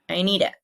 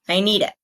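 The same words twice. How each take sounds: First: The d sound runs straight into it. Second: The same.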